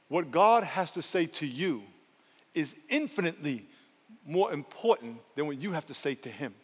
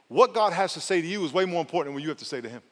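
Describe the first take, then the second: First: It is said slowly and deliberately. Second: It is said at a normal pace.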